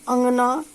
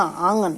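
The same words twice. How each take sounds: First: अंगना with a nasal अं, rising; careful nasal vowel; nasal vowel demo. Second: आंगन with long आ, lower; the wrong reading, lower; wrong reading demo. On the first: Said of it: "किंतु". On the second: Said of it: "स्त्री के स्थान पर अंगना". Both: Shown as a demonstration.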